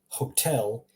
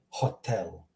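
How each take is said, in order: First: It is pronounced the English way. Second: It is pronounced the Croatian way. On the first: "In English, it's hotel" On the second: "Croatian, hotel"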